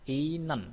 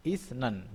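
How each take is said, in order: First: "inen" with s turned into n; higher "inen", no s at all; as pronounced. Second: "Isnen" with s sounded before n; as written. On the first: Teacher shows how it is read, assimilated "inen". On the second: Teacher reads the spelling first, unassimilated "Isnen". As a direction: keep the hissed s in "Isnen". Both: Shown as a demonstration. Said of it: "Bacanya adalah".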